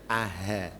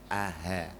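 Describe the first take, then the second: No difference in how they are said.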